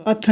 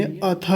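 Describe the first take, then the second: First: अथ said the way the teacher marks as wrong; wrong reading of अथ. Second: अथ said the correct way, as the teacher models it. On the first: Teacher showing students the wrong अथ, marked as wrong. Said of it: "अथ नहीं कहेंगे". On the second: Teacher modelling the correct अथ for students. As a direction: model अथ cleanly for the class. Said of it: "अथ कहेंगे". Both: Shown as a demonstration.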